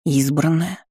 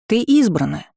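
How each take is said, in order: First: "Избранная" as a rising question; questioning echo. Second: "избранная" pitched high, stated emphatically; emphatic declaration. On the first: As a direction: echo "Избранная" back, pitch rising at the end. Girl echoes mentor's word in disbelief. («Избранная» растерянным вопросом, с подъёмом) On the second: Mentor declares, girl echoes it back. («избранная» утвердительно, высоким тоном) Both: A narrator's reading.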